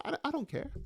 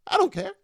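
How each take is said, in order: First: Soft, dropped-away mutter. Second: Higher and louder, defiant; emphatic. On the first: Shrugging off the bad show to viewers, muttered softly. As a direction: mutter it under your breath. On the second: Shrugging off the bad show to viewers, higher and louder. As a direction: throw it out high and loud. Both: Acted.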